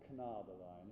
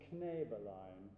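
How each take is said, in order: First: The first vowel sounds like 'ah'. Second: The first vowel sounds like 'eh'. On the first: The speaker calls it wrong. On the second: The speaker calls it right. "the word is Knäbelein ... it's Kne"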